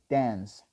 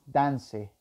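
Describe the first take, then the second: First: The word ends without a final vowel sound. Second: The word ends with an added vowel sound. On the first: The speaker calls it right. "decimos dance" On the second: The speaker calls it wrong. "No decimos dance"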